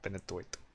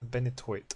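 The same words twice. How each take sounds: First: It is said in a put-on comic accent. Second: It is said in the speaker's normal accent.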